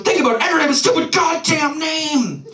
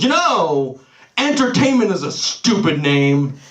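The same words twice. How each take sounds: First: High-pitched exasperated mock rant; angrier outburst. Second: Mildly exasperated mock outburst, slightly raised pitch; mounting annoyance. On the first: Brother insisting on his point to baffled sibling, angrier. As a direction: imitate a brother erupting in frustration. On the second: Brother turns from staring at the wall to vent, mock angry. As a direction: imitate an angry brother breaking his silence. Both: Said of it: "getting visibly angrier and angrier".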